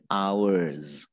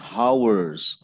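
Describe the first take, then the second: First: The h at the start is silent. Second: The h at the start is pronounced. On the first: The speaker calls it right. "Jadi haknya nggak dibaca" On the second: The speaker calls it wrong. "bukan hours"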